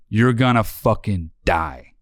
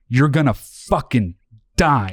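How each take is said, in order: First: It is said less aggressively. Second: It is said very aggressively.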